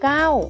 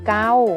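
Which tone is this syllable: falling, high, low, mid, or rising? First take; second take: falling; mid. First: The syllable has a falling tone. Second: The syllable has a level mid tone. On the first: "เสียงโทใส่รูปวรรณยุกต์โทเก้า" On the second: "เสียงสามัญคือเกา"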